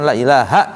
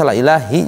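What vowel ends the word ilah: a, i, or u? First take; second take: a; i. First: The word ends with the vowel a. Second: The word ends with the vowel i. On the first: The speaker calls it right. "secara nahwu ya la ilaha illallah" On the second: The speaker calls it wrong. "enggak boleh dibaca la ilahi juga enggak boleh"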